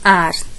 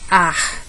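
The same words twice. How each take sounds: First: It is said in a São Paulo city accent. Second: It is said in a Northeastern Brazilian accent. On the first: "na capital paulista" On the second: "No Nordeste"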